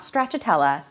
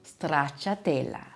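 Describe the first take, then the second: First: The R is said without a roll. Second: The R is rolled like a purr. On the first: The speaker calls it wrong. "not stracciatella" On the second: The speaker calls it right. "You really have to roll that R in the stracciatella"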